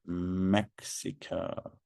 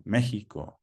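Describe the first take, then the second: First: Said in the usual way. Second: Mexico said the Spanish way, MEH-hee-koh; Mexico in native Spanish pronunciation. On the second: Shown as a demonstration. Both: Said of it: "as we say in Spanish".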